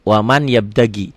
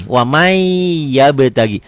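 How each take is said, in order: First: "waman yabtagi" with a plain sounded N; as written. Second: "wamai yabtagi" with the N melted into a long held Y; held idgham. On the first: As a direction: say "waman yabtagi" as two spelled-out words, N unmerged. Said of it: "Ditulisnya waman yabtagi". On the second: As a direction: hold the glide in "wamai" before "yabtagi". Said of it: "Wamai ditahan". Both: Shown as a demonstration.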